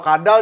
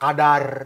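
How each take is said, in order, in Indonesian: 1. Kata ini berakhir dengan bunyi L yang jelas. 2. Kata ini malah berakhir dengan bunyi R.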